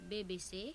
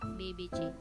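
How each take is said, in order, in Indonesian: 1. Hurufnya dibaca dengan nama huruf bahasa Belanda. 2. Hurufnya dibaca dengan nama huruf bahasa Indonesia. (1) "dalam bahasa Belanda" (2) "dan dalam bahasa Indonesia"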